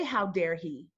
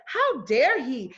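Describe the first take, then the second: First: Lower, reined-in version of the outrage; held-back indignation. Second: Slow, indignant outburst on the listeners' behalf; annoyed, irritated. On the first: Driver who can't say it to the officer, indignation held down. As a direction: say it as words you aren't allowed to say. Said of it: "I can't say". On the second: Voicing the audience's reaction to the officer, annoyed and indignant. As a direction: voice their irritation, drawing it out. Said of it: "you hear how annoyed and how irritated you feel". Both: Retold or imitated.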